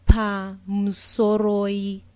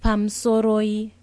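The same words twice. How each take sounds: First: Pamsoroi stretched out slowly, each syllable pam-so-ro-i clear; slow model pamsoroi for students to copy; slowed-down pronunciation. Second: Said in the usual way. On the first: Shown as a demonstration. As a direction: pamsoroi spelt out slowly for learners. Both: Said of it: "Pamsoroi, excuse me".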